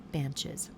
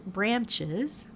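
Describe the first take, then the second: First: "branches" said a third time, softer and falling, settled; settled word. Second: "branches" said again with a rising, searching tune; fixing a word. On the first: Crafter settling the stumbled word, soft falling "branches". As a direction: drop "branches" quietly once it comes out right. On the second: Crafter fixing a stumbled word, rising "branches". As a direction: try "branches" again, rising as she checks it. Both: Real, not acted. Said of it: "I speak such good English".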